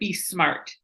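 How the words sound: It is said in a general accent.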